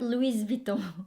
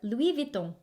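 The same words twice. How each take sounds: First: Louis is said in two syllables, loo-ee. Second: Louis is said in one glide, lwee. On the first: The speaker calls it wrong. "not Louis Vuitton" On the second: The speaker calls it right. "L W I"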